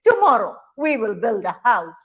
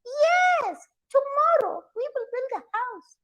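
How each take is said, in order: First: Firm, louder father monkey declaring; lightly voiced father monkey. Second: Very high, singsong mother monkey. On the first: Father monkey promising a house, lightly voiced declaration. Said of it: "father monkeys would shake their right hand and say". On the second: Acted. Mother monkey echoing father monkey, high-pitched agreement. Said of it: "The mother monkeys would shake their head and say".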